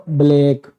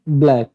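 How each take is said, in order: First: Black drawn out with a split bl, "buh-lake"; wrong pronunciation. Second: Said in the usual way. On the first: Shown as a demonstration. Teacher warning students off it, black mispronounced as "buh-lake". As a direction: say black the faulty way, loosening the cluster. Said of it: "not black". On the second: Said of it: "it's black".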